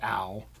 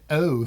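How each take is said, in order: First: The vowel sounds like 'ow' in 'cow'. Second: The vowel sounds like 'oh' in 'go'. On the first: The speaker calls it right. "makes the ow sound, as in the word ow" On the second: The speaker calls it wrong. "You don't say"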